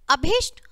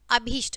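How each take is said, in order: First: अभिष्ट with short "i", as "abhisht"; wrong short i. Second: अभिष्ट said "abheesht", long "ee"; correct long ī. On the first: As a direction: keep the "bhi" of अभिष्ट quick. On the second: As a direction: lower अभिष्ट with a drawn "bhee". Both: Shown as a demonstration. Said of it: "ई की मात्रा का फर्क".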